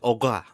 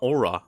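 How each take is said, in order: First: The R is rolled at the back of the throat. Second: The R is a plain English R. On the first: The speaker calls it right. "you need to somehow roll it" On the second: The speaker calls it wrong. "It's not aura"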